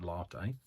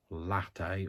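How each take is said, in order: First: "latte" with a long ah, LAH-tay; own pronunciation. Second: "Latte" with a short flat a, as in cat; alternative pronunciation. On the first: Telling viewers how she says it, "latte" as LAH-tay. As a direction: stretch the first vowel of "latte" to ah. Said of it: "but I pronounce it". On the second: Offering viewers another pronunciation, "Latte" with short a. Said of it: "or however you pronounce it". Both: Shown as a demonstration.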